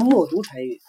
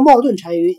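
First: The first part sounds like 'mo du'. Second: The first part sounds like 'mao dun'. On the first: The speaker calls it right. "应该叫默读单于" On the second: The speaker calls it wrong. "你要叫冒顿单于老土了"

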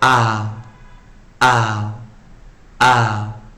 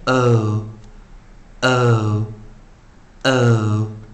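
First: The vowel is an open 'ah' sound. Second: The vowel is a rounded 'oh' sound. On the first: "它可以念OLL 的短元" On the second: "长元我们念O O O"

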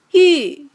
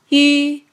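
First: The pitch falls sharply from high to low. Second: The pitch stays high and level. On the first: "四声降" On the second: "一声平"

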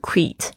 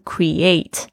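First: The stress is on the first syllable. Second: The stress is on the second syllable. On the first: The speaker calls it wrong. "不是create" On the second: The speaker calls it right. "重音在eight 上面"

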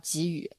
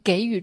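First: The word has its older, original reading. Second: The word has the newer, popular reading. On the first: This is the reading taught in the past. The speaker calls it right. "我们小时候学的时候、它就只有这么一个读音" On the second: This is the reading most people use now. The speaker calls it wrong. "有太多太多人都念成给予"

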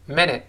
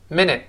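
No difference in how they are said.

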